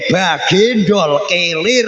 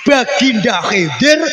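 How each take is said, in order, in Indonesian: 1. Namanya diucapkan dengan bunyi k biasa. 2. Namanya diucapkan dengan bunyi kh dari tenggorokan.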